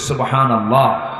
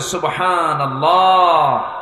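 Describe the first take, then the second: First: It is said loudly. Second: It is said even more loudly.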